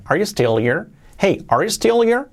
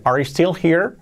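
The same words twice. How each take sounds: First: HERE loses its H, "stillir"; dropped H. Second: HERE keeps its H in the question; H pronounced. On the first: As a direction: link still into here as "stil-ir". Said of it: "lo más común es que digan". (here sin H, unido a still) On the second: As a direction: say "still here" with an audible H. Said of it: "las Hs las podemos omitir si queremos". (here con la H pronunciada) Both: Shown as a demonstration.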